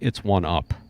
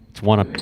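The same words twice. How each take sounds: First: It is said slowly. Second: It is said at normal speed.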